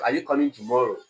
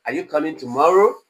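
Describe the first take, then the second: First: "Are you coming tomorrow" sinking on 'tomorrow'; falling tone. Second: "Are you coming tomorrow" louder, soaring on 'tomorrow'; rising tone. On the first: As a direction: let 'tomorrow' drop like a statement. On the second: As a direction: push 'tomorrow' up high and strong. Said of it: "You are raising your voice". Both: Shown as a demonstration.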